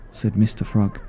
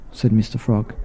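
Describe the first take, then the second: No difference in how they are said.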